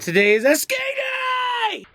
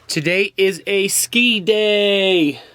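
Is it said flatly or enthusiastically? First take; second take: enthusiastically; flatly. First: It is said loudly, with lots of energy. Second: It is said flatly, without much energy.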